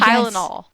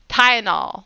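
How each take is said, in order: First: The word is said with the first L pronounced. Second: The word is said with the first L dropped. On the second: "they miss the first L in there"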